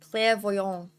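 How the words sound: The word is said with a French pronunciation. "It sounds so much better as a French word"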